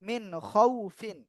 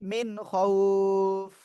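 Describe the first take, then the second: First: The last word ends with a full 'fin' syllable. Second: The last word ends abruptly on the 'f' sound. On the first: The reading continues without stopping. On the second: The reader stops at this word.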